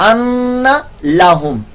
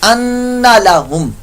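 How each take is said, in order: Both takes have the same delivery.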